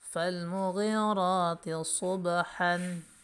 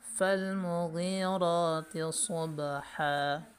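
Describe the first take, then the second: First: The last word ends with an n sound. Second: The last word ends with a long vowel.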